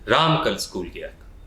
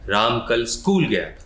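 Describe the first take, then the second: First: The word Ram is stressed. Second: The word school is stressed.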